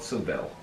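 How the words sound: The name is said the English way. This is how people outside Spain say it. "A lot of people outside of that call it"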